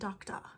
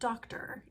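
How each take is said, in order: First: The r at the end is dropped. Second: The r at the end is clearly pronounced.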